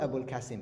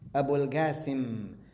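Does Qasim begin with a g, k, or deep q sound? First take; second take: k; g. First: Qasim begins with a plain k sound. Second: Qasim begins with a hard g sound. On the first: "he was not Abul Qasim" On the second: "like with a G, Ga"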